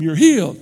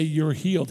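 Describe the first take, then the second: First: Loud, punched faith healer proclamation; mock faith healer shout. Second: Said in the usual way. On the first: Preacher mocking faith healers, loud shouted proclamation. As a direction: bellow it like a showy faith healer. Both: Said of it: "like some of the faith healers did and go".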